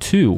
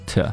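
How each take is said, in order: First: The vowel is a full 'oo' sound. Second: The vowel is reduced to a weak schwa. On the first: "所以说 to 会变成 t" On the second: "把这个 u sound 的元音给它弱读成一个 schwa sound"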